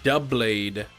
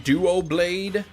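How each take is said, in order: First: The name begins with a 'dub' sound. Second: The name begins with a 'duo' sound. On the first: "as in double" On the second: "I'm seeing Duo Blade in the chat"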